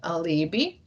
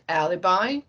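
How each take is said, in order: First: It is pronounced the Latin way. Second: It is pronounced the familiar English way. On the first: "how we would pronounce that in Latin" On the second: "everyone heard about alibi"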